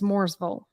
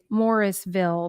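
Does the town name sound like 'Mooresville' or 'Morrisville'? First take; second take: Mooresville; Morrisville. First: The first part sounds like 'Moores'. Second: The first part sounds like 'Morris'. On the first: It is the local North Carolina pronunciation. "if you're in North Carolina, it's" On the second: It is read straight from the spelling. "if you look at it, you may say"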